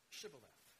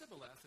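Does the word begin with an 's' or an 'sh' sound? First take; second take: sh; s. First: The word begins with an 'sh' sound. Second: The word begins with a plain 's' sound. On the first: The speaker is not from the Ephraimite dialect. The speaker calls it right. "instead of Shibboleth" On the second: The speaker is from the Ephraimite dialect. The speaker calls it wrong. "due to their particular Hebrew dialect, pronounced it Sibboleth"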